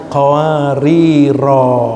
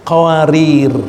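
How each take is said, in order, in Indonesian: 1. Kata ini berakhir dengan vokal panjang. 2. Kata ini berakhir pada konsonan r. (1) "dibaca yang serupa dengan itu, maka bacanya qawariro kalau wakaf" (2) "nggak ada alifnya"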